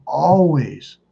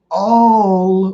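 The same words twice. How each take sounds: First: Said in the usual way. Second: "always" drawn out high and loud; long, high, louder stress on "always"; emphatic stretch. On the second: Real, not acted. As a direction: hammer "always", holding the first vowel long. Repeats the word for emphasis.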